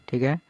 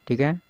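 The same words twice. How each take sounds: No difference in how they are said.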